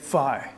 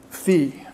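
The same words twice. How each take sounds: First: It is said with an American accent. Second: It is said with a non-American accent.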